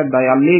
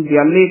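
First: ਦਇਆਲੇ with an added a, da-i-aa-lay; mispronunciation demo. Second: ਦਿਆਲੇ as di-aa-lay; correct pronunciation. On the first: Teacher warns reciters, faulty ਦਇਆਲੇ with extra vowel. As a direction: break ਦਇਆਲੇ open with an a after the d. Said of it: "ਦਇਆਲੇ ਨਹੀਂ ਬੋਲਣਾ ਹੈ". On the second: Teacher tells reciters how to say ਦਿਆਲੇ, correct form. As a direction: say ਦਿਆਲੇ with a short i after the d. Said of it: "ਇਸ ਨੂੰ ਦਿਆਲੇ ਕਹਿਣਾ ਹੈ". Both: Shown as a demonstration.

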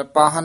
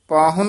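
First: ਪਾਹਨ said "paa-han"; ਪਾਹਨ without u. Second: ਪਾਹੁਨ said "paa-hun"; ਪਾਹੁਨ with u vowel. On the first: Teacher shows the mistaken reading, ਪਾਹਨ with "han". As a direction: drop the u, ending ਪਾਹਨ in "han". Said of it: "ਨਹੀਂ ਕਹਿ ਦੇਣਾ". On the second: Teacher gives the correct word for guest, ਪਾਹੁਨ with "hun". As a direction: sound a short u in ਪਾਹੁਨ. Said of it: "ਉਚਾਰਨ ਕਰਨਾ". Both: Shown as a demonstration.

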